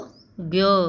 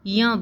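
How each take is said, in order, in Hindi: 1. यह अक्षर बिना j-n संयोजन के बोला जाता है। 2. यह अक्षर j और n की ध्वनियों को मिलाता है। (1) "आपने अब तक सीखा होगा इसको ज्ञ... तो ये गलत होता है" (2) "ये ज और न से मिलकर बनता है, इसलिए हम उसको य बोलते हैं"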